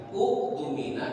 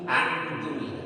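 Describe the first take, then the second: First: The word begins with a u and k sound. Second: The word begins with an a and k sound. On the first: "Bukan uktumina" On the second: "apalagi aktumina"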